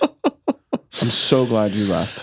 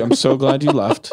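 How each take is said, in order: First: Low, very slow delivery; slow, drawn out. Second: Said in the usual way. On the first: Acted. Repeating relief that he left, slow and low. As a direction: stretch each word out, pitched low.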